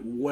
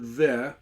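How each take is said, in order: First: The word begins with a w sound. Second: The word begins with a v sound. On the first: This is the ancient pronunciation. "Some people pronounce it we" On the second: This is the modern pronunciation. "we're doing it the modern way"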